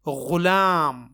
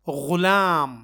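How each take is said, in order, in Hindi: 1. यह गले वाली, घर्षी gh ध्वनि से शुरू होता है। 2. यह गले वाली, घर्षी gh ध्वनि से शुरू होता है।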